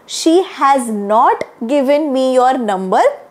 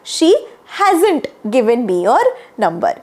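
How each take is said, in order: First: 'Has not' is said as two full words. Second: 'Has not' is contracted into one syllable pair. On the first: "असं पण म्हणू शकता" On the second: "अधिक fluent sound करायचं असेल तर"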